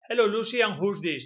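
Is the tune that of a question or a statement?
statement. It is said without question intonation. The speaker calls it wrong. "Don't say"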